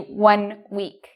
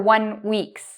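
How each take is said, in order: First: The word ends without an s sound. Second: An s sound is added to the end. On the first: The speaker calls it right. "It should be one week" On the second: The speaker calls it wrong. "I pronounced an S after week"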